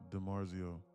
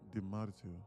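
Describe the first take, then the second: First: The name is said with an American accent. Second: The name is said with an Italian accent. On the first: "I should just say" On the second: "speak in a weird Italian accent"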